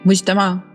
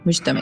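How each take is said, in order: First: The word ends in an open 'a' vowel. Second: The word ends in an 'e' vowel. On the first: A gathering or place of assembly. "मुज्तमा कुछ लोग कहते हैं" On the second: The one who collects or gathers. "मुज्तमे कहते हैं कुछ लोग"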